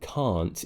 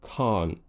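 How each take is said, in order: First: The final t is clearly released with air. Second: The final t is swallowed as a glottal stop. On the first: "instead of it being can't" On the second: "glottalizing. It's a glottal stop"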